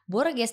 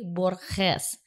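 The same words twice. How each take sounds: First: The name is read with plain Indonesian-style sounds. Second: The name is read with Spanish-style sounds. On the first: The speaker calls it wrong. "bukan Borges dibacanya" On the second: The speaker calls it right. "tapi Borges"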